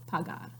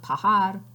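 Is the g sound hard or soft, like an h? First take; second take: hard; soft. First: The g sounds like a hard g. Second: The g sounds like a breathy h. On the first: The speaker calls it right. "it's pagar" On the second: The speaker calls it wrong. "the verb's not pagar"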